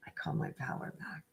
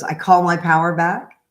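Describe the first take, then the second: First: Breathy whispered repeat of the line; whispered lyric. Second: Said in the usual way. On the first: Retold or imitated. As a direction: whisper the chorus line to yourself. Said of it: "the chorus is". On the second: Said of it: "she has a song that goes".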